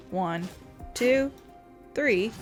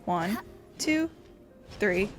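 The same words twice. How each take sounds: The two takes are said the same way.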